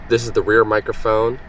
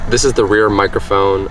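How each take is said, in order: First: The voice is recorded at a lower gain. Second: The voice is recorded at a higher gain. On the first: "same audio levels of twenty-five" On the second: "boosted up to thirty-one instead of twenty-five"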